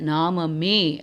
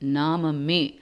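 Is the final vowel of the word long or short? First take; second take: long; short. First: The final vowel is held long. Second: The final vowel is kept short. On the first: The speaker calls it wrong. "நெடில்ல படிக்கக்கூடாது" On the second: The speaker calls it right. "குரில்"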